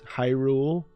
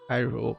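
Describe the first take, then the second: First: The voice stays steady and full on the word. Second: The voice cracks and fades on the word. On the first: The speaker calls it right. "pronounce the word Hyrule normally" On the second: The speaker calls it wrong. "It just becomes a one giant voice crack"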